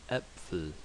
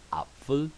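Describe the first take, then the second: First: Äpfel with an E-like Ä, softer; Ä vowel; umlaut Ä in Äpfel. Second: Apfel with an open A; plain A in Apfel. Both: Shown as a demonstration. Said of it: "A, Ä".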